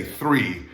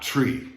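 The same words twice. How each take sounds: First: "three" with a clear th-r; TH-R sound. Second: "tree" with a hard t, no h; plain T-R. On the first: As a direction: stress the TH opening "three". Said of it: "pronounced like a T H R". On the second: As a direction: say "tree" with T before R. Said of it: "not tree". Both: Shown as a demonstration.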